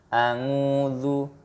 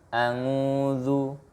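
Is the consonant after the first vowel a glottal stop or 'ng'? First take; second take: ng; ng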